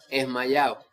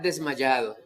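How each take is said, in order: First: The word begins without its d sound. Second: The word begins with its d sound. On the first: The speaker calls it wrong. "la palabra mal pronunciada" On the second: The speaker calls it right. "realmente es estar desmayado"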